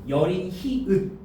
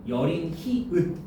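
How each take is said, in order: Both takes have the same delivery.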